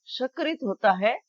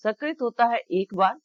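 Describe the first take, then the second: First: सकृत as sha-krit; SH replacing S. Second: सकृत as sa-krit; dental S. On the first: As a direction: start सकृत on sh. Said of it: "स की जगह श use कर लेंगे". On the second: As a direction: start सकृत on a plain s. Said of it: "उच्चारण की शुद्धता पर बहुत ध्यान". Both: Shown as a demonstration.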